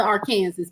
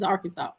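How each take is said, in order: First: Arkansas said ar-KAN-zis; spelling pronunciation. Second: Arkansas said AR-kin-saw; correct pronunciation. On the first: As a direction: say Arkansas to rhyme with Kansas. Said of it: "You spell it Arkansas". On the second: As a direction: end Arkansas in "saw", silent final s. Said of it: "but it's Arkansas". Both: Shown as a demonstration.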